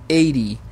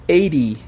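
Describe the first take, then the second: No difference in how they are said.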